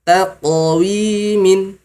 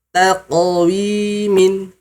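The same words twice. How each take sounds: First: The q is released with a bouncing echo. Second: The same.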